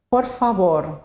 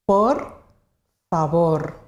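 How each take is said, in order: First: Said in the usual way. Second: "Por" and "favor" said apart, a clear pause between; two separate words. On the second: Shown as a demonstration. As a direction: split "Por ... favor" for learners. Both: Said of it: "Two words".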